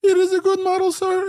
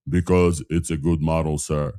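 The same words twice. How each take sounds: First: Squeaky falsetto, far higher. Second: Low-pitched voice. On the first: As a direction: jump up into a tiny high voice. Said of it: "When I speak with a high voice". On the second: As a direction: drop your voice low. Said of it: "in a low voice". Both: Shown as a demonstration.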